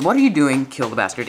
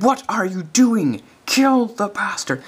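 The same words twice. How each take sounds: First: Imitated American accent. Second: Higher, slow mock American yell; imitated American accent. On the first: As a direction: quote the line briskly with a light American accent. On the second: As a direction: quote him high and drawn out, American accent. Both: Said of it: "in an American accent".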